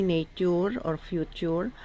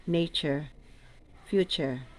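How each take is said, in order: First: "nature" and "future" with a hard t, "netur", "fjutur"; teacher showing the wrong "nature or future", hard t. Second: "nature" and "future" with a ch sound, "net͡ʃer", "fjut͡ʃer"; teacher giving the correct "nature" and "future" with ch; correct pronunciation. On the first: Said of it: "we don't say". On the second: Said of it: "We say". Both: Shown as a demonstration.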